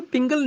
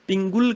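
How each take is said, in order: First: ਪਿੰਗਲ quick, as 'pingal'; wrong second vowel. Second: ਪਿੰਗੁਲ as 'pingul'; corrected 'u' vowel. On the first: Teacher showing the mistake, ਪਿੰਗਲ as 'pingal'. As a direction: say ਪਿੰਗਲ with short 'a'. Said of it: "ਪਿੰਗਲ ਨਹੀਂ ਕਹਿਣਾ". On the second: Teacher correcting, ਪਿੰਗੁਲ with 'u' after g. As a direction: put a short 'u' in ਪਿੰਗੁਲ. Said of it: "ਗੱਗੇ ਨੂੰ ਔਂਕੜ ਹੈ". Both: Shown as a demonstration.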